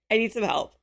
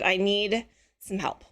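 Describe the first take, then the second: First: Said in the usual way. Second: Slow, laughing through the ask; laughing plea. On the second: Real, not acted. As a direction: chuckle as you beg for help. Pleading for help, laughing.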